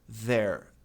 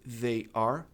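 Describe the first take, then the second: First: It is said as one contracted syllable. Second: It is said as two full words.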